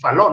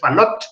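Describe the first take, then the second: First: The final T is not pronounced. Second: The final T is pronounced. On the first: The speaker calls it right. "en francés no se pronuncia la T al final, por eso se dice Fallot" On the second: The speaker calls it wrong. "no se dice Fallot"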